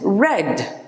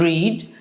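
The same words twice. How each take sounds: First: The vowel is short, like 'red'. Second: The vowel is long, like 'reed'. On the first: It is the past tense. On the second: It is the present tense.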